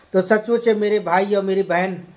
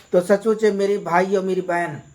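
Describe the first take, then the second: The two takes are said the same way.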